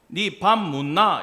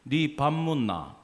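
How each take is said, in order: First: Slow, louder Busan-accented question; Busan dialect. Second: Slow Daegu-accented question, falling away; Daegu dialect. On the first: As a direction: demonstrate the Busan tune, punched and drawn out. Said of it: "부산 가면 뭐가 되는지 아세요". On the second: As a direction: demonstrate Daegu intonation, drawn out. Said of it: "제가 대구말 해볼게요". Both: Shown as a demonstration.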